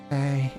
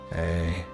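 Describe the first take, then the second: First: It is said in a little boy's voice. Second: It is said in a grown man's voice.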